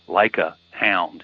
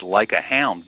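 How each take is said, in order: First: The phrase is broken up with small pauses. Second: The phrase is said smoothly without breaks.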